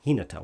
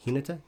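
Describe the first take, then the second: First: "Hinata." said lower with a falling end; settled pronunciation. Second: "Hinata?" said quietly with a questioning rise at the end; unsure pronunciation. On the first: Host corrects himself, saying "Hinata." lower with a falling tune. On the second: Host tries out how to say "Hinata?" with a rising, questioning tune. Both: Shown as a demonstration. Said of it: "I should stop using words".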